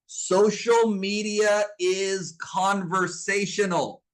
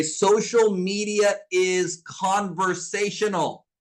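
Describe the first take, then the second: First: Chanted, slow, even, word by word; chanted, lead them through it slowly like a class repeating after you; slow chant-along. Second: Slow, word by word, for note taking; slow dictation. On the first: Chanted, coach leading the audience to repeat it, slow and even. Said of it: "Say it with me". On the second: Coach dictating a rule to her students, slow and deliberate. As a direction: spell it out slowly so they can write it down. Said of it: "Write this down in your notes right now". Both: Shown as a demonstration.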